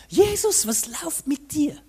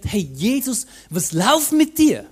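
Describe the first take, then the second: First: Sung name. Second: Bewildered outburst. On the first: Preacher recalling his reaction again, the name sung high. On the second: Preacher recalling his old reaction to the story, loud and baffled. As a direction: challenge Jesus like a baffled friend. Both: Retold or imitated.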